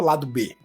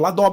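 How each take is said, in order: First: It is said as two words, ending in 'bê'. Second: It is said as one word, ending in 'b'. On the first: This is the name as originally meant. "não falava lado B" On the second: This is how foreign viewers said the name. "falava Ladob"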